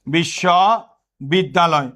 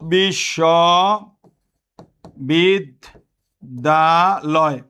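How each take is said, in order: First: Said in the usual way. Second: বিশ্ববিদ্যালয় pulled apart very slowly, each syllable separate. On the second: Shown as a demonstration. Teacher shows students how to break up বিশ্ববিদ্যালয় slowly. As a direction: spell out বিশ্ববিদ্যালয় in slow separate beats. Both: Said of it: "যদি তুমি এইভাবে লেখো".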